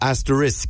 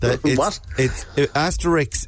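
First: The word ends with an 'sk' sound. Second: The word ends with a 'ks' sound. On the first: It names the little star symbol. The speaker calls it right. "asterisk is how you pronounce the little star thing" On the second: It names the cartoon character. The speaker calls it wrong. "Asterisk is the name of the cartoon"

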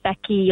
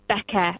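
First: The name ends in a clear 'ee' sound. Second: The name ends in a short 'uh' sound. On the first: The speaker calls it right. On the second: The speaker calls it wrong.

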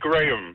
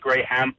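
First: The name is said with a British accent. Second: The name is said with a Danish accent. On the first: "Du siger det på sådan en lidt BBC-agtig" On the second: "Men det gør vi ikke i Danmark"

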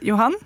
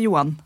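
First: The name is said in the Eastern Norwegian way. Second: The name is said in the Trondheim/Ålesund way. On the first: This is how it is said in Eastern Norway. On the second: This is how it is said in Trondheim and Ålesund.

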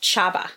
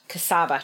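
First: The name starts with a 'ch' sound. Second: The name starts with a 'k' sound. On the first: The speaker calls it right. "in Hungarian. So it would be pronounced Chaba" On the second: The speaker calls it wrong. "not Cassava"

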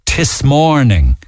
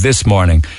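First: It is said with a local Cork pronunciation. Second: It is said with a standard pronunciation. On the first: The speaker calls it wrong. "people say in Cork, tis morning" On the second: The speaker calls it right. "instead of this morning"

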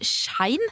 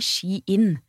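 First: The vowel is a Norwegian diphthong. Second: The vowel is not a Norwegian diphthong. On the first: "Vi har kalt det Shein" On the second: "uten norsk diftong"

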